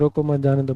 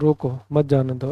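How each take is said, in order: First: The pause comes right after 'mat'. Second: The pause comes right after 'roko'. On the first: Do not stop him, let him go. "बाढ़ में जाए तू नहीं कोई और सही" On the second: Stop him, do not let him go. "इसको रोक के रखो"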